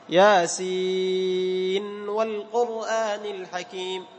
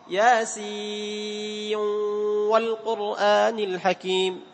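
First: The n before wa is clearly sounded. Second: The n before wa merges into the w. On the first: "كيف الإظهار؟" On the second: "الإدغام"

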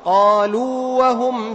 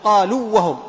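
First: The long vowel is held before the next letter. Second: The long vowel is merged into the next letter. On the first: The speaker calls it right. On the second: The speaker calls it wrong.

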